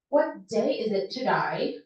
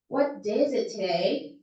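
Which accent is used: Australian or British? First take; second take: Australian; British. First: It is spoken in an Australian accent. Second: It is spoken in a British accent. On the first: "sa Australian accent, parang iiba yung word ... parang to die?" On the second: "sa British accent, ... ma-airy yung boses"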